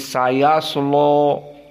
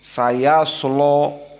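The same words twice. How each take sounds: First: The l is heavy and the vowel sounds o-like. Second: The l is heavy and the vowel sounds o-like.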